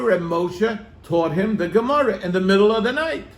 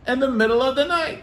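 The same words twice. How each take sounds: First: Said in the usual way. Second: Repeated higher and quicker for emphasis; emphatic repeat. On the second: Shown as a demonstration. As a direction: hammer home "In the middle of the night" again, pitched up.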